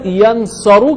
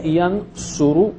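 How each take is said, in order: First: The vowel after the s is 'a'. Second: The vowel after the s is 'u'. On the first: The speaker calls it wrong. "यनसरू के बजाय" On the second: The speaker calls it right. "यनसुरु कहेंगे हम"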